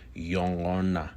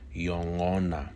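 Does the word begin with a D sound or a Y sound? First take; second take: Y sound; Y sound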